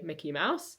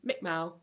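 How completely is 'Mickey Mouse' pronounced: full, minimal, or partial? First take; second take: full; minimal. First: Both words are pronounced fully with all sounds. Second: A syllable and the final consonant are both dropped. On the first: This is the usual adult pronunciation. The speaker calls it right. "we would say Mickey Mouse" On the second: This is an even less developed child pronunciation. The speaker calls it wrong. "or even Mick Mow"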